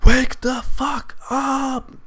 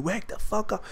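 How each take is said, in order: First: High, drawn-out imitation of screaming; mock scream. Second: High-pitched but softened mock yell; retold scream, held back. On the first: Brother screaming to wake sleeper, mock scream. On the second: Brother waking him, retold as softened high yell. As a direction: replay the brother's yell at reduced volume. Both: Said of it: "just screaming, saying".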